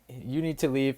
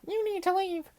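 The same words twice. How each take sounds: First: It is said in a plain, matter-of-fact way. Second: It is said in an exaggerated, comic way.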